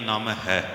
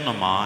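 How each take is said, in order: First: The word is split as 'naam' plus 'hai'. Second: The word ends in a long 'maa' sound. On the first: This is the reading commonly heard since childhood. "ਬਚਪਨ ਤੋਂ ਲੈ ਕੇ ਸੁਣਦੇ ਆ ਰਹੇ ਹਾਂ ... ਠੀਕ ਹੈ" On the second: This is the original Sanskrit reading. "Sanskrit ਵਿੱਚ ... ਪੜ੍ਹਿਆ ਜਾਏਗਾ ਨਮਾ ਨਮਾ ... ਅਸਲੀ ਅੱਖਰ ਹੈ ਜੋ ਨਮਾ ਹੈ"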